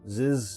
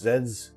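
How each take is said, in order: First: The letter is said as zee. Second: The letter is said as zed. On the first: The speaker calls it right. "Z's sounds better than Zeds" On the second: The speaker calls it wrong. "Z's sounds better than Zeds"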